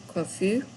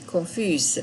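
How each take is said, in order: First: "Confus" ending on a bare vowel, no S sound; boy's form, S left unspoken; no final s. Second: "confuse" ending with a clear z sound; girl's form, S pronounced; final z sound. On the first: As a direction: say "Confus" with the S silent. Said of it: "You don't pronounce the S if you're a boy". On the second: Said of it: "You add the E". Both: Shown as a demonstration.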